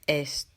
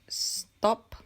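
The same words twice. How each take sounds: First: An extra e vowel comes before the s. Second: The word starts directly with the s sound. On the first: The speaker calls it wrong. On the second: The speaker calls it right.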